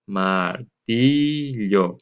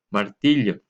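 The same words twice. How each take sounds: First: Martillo very slow and louder, with a long "tiii"; lengthened stressed syllable. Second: Said in the usual way. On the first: Shown as a demonstration. Teacher helping pupils find the tonic syllable, martillo drawn out on "ti". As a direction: stretch martillo out, holding the "ti" longest. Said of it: "alargar un poquito nuestra voz al pronunciar". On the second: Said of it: "alargar un poquito nuestra voz".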